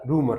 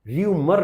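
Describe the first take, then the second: First: The word begins with a plain 'roo' sound. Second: The word begins with a 'ryoo' sound. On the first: The speaker calls it right. "रूमर रहता है" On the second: The speaker calls it wrong. "उसका pronunciation र्यूमर नहीं रहता"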